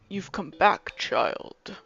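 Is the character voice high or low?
low. A lower, deeper voice for the character. "I feel like he would be more of a lower voice kind of character"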